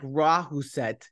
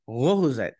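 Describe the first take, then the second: First: It is said with plain English sounds, syllable by syllable. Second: It is said with Danish sounds, syllables blended. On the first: The speaker calls it wrong. "it looks like Rahuset if you're just like a normal sort of like shitty North American speaker" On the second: The speaker calls it right. "I have to struggle to pronounce that because it's got a funny little circle over the A"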